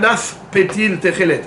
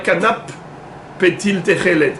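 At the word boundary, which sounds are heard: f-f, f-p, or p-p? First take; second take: f-p; p-p. First: An f sound is followed by a p sound. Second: A p sound is followed by another p sound. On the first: The speaker calls it right. "Un kanaf, à la fin, c'est fait. Et pétil, c'est paix" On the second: The speaker calls it wrong. "il y en a qui vont dire"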